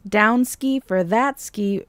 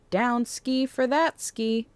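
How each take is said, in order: First: Slower, louder, drawn out goofy slang; mock proud repeat; goofy catchphrase repeated. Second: Silly sing-song slang; playful, a bit dorky; goofy silly voice. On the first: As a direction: lean into the silly phrase for a friend. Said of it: "words that were never meant to be repeated". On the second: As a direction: toss it off in a goofy put-on voice. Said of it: "I don't know why I said it like that". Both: Real, not acted.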